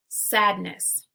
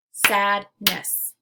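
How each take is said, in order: First: Said in the usual way. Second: "Sadness" in two beats, loud SAD, pause, NESS; split into syllables. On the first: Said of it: "Let's segment syllables now". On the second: Shown as a demonstration. Teacher clapping out syllables for learners, "Sadness" segmented as sad ... ness. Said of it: "we'll clap out the syllables".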